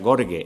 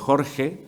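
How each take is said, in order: First: The name starts with a hard G sound. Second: The name starts with a throaty J sound. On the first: A funny mispronunciation of the name. The speaker calls it wrong. "cuando nosotros decimos una palabra mal, eso produce risa" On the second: The normal way to say the name. The speaker calls it right. "en vez de Jorge"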